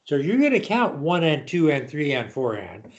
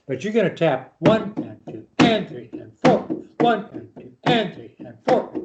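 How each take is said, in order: First: Said in the usual way. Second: "two" and "four" pushed higher with accents; accented tapping count. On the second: Shown as a demonstration. Teacher demonstrating the accents to the student, stressed count. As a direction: lean into the double notes while counting. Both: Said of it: "the double notes are accents".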